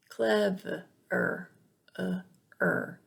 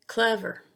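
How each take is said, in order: First: Clever split into clev, uh, er; broken-down schwa. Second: Said in the usual way. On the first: Shown as a demonstration. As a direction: sound out clever in pieces, isolating uh and er. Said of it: "It makes the uh sound". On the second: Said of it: "is never stressed".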